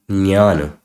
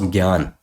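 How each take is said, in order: First: It begins with a j-n sound. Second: It begins with a g-y sound. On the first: The speaker calls it right. "the correct pronunciation of this word is Jnana" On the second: The speaker calls it wrong. "So this word for me was Gyan"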